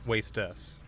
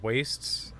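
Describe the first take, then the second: First: The word is said as two syllables, wast-us. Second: The word is said as one syllable, wastes. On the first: "I think that might actually be the right way to pronounce that" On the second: "instead of wastes"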